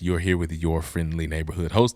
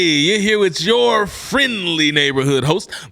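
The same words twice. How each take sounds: First: It is said with calmer, lower energy. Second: It is said with lively, higher energy. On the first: "I kind of said it like that" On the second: "It's a different energy"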